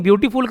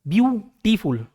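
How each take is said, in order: First: Said in the usual way. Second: "ब्यूटीफुल" split into separate beats, ब्यू-टी-फुल; broken into syllables. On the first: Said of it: "दो syllable में हम लोग बोलते हैं ना रुक के". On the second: Shown as a demonstration. Teacher showing the tongue changes shape, "ब्यूटीफुल" syllable by syllable. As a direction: pause between the parts of "ब्यूटीफुल". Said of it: "मेरा जुबान दो बार अपना स्ट्रक्चर चेंज".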